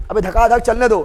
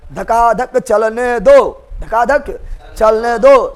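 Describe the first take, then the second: First: Said in the usual way. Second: Very slow, stretched "धकाधक चलने दो"; drawn-out emphasis. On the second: Real, not acted. Same phrase repeated for emphasis. ("धकाधक चलने दो" खींच-खींचकर, बहुत धीरे)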